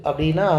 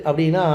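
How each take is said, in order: Both takes have the same delivery.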